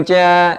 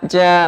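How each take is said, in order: The two takes are said the same way.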